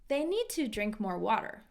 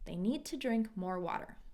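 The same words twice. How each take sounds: First: The word 'to' is said with a full vowel. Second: The word 'to' is reduced to a weak vowel. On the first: "So I can say" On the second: "or I can reduce it"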